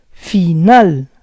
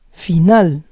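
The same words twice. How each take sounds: First: Final split as fi-NAL; syllable by syllable. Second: Said in the usual way. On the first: Shown as a demonstration. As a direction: say Final in parts, stressing NAL. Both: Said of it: "try to understand the rules".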